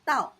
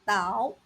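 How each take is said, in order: First: The tone falls sharply from high. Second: The tone dips low, then rises. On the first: "fourth tone" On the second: "third tone"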